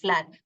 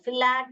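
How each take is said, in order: First: The f and l sounds blend with no vowel. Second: A short vowel splits the f and l sounds. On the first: The speaker calls it right. "ल फ्ल फ्ल एट" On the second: The speaker calls it wrong. "ऐसे नहीं पढ़ोगे"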